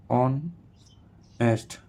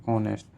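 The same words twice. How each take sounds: First: "honest" slowly split in two with a pause; syllable by syllable. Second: Said in the usual way. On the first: Shown as a demonstration. Teacher showing a two-syllable word, "honest" syllable by syllable. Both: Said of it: "टू syllable".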